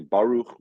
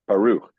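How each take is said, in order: First: The stress is on the first syllable. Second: The stress is on the last syllable. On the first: This is the shifted accent used in poetry. "they suddenly shift the accent to the front of the word" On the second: This is the usual everyday accent. "The accent is on the last syllable"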